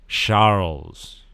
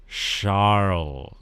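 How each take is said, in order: No difference in how they are said.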